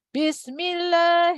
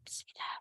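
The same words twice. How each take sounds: First: The word is said in a loud voice. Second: The word is said in a low voice.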